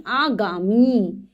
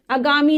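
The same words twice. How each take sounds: First: "आगामी" drawn out slowly, aa-gaa-mee; correct pronunciation. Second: "आगामी" with short first A, a-gaami; mispronounced word. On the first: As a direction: stretch every long vowel in "आगामी". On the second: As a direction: say "आगामी" wrongly, clipping the first vowel. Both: Shown as a demonstration. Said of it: "आगामी नहीं".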